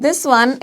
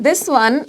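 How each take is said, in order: No difference in how they are said.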